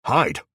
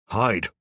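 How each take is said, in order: First: Loud, falling command; urgent order. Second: Louder, insistent plea to his wife; pleading urge. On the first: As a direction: snap the word out as an order. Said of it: "he orders us". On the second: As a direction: beg her to go. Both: A narrator's reading.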